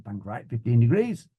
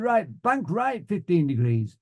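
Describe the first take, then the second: First: Echoed order with a rising end; student's repeat. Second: High, slow flying order; instructor's command. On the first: Student pilot answering the flying instructor, obedient repeat. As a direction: repeat it back as if checking. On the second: Flying instructor ordering a turn, instructor's command. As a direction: call it out deliberately, falling at the end. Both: Retold or imitated.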